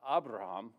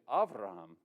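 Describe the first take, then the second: First: The second consonant is a B sound. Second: The second consonant is a V sound. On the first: The speaker calls it wrong. "his name in Hebrew is not Abraham" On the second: The speaker calls it right. "It's actually Avraham"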